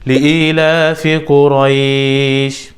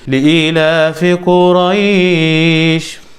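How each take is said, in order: First: The long vowel is held for two counts. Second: The long vowel is held for four counts.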